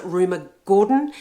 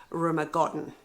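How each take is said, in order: First: "Gordon" with a long OR vowel; alternative name pronunciation. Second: "Godden" with a short O, as in "god"; preferred name pronunciation. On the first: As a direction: say "Gordon" like GOR-dun, vowel drawn as in "door". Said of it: "some people pronounce it". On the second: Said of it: "I really do prefer". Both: Shown as a demonstration.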